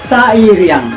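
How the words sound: It ends with a Minang-style -iang. The speaker calls it right. "Jadi kita bilang sairiang"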